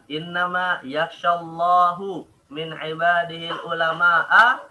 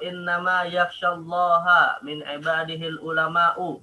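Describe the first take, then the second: First: The word Allah ends with a u vowel. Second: The word Allah ends with an a vowel. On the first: God fears the scholars. The speaker calls it wrong. "atau yakhshallahu?" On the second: The scholars fear God. The speaker calls it right. "Yakhshallaha Ustaz"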